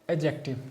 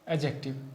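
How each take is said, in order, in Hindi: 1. d ध्वनि स्पष्ट रूप से बोली जाती है। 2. d ध्वनि मूक रहती है। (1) "पढ़ेंगे एडजेक्टिव नहीं" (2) "ये होती है सही प्रोनाउंसिएशन"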